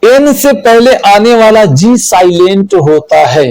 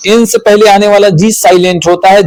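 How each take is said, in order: First: Said in the usual way. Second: Fast run-through of the rule; quick recap for students; quicker repeat. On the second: Shown as a demonstration. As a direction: rattle the rule off again quickly.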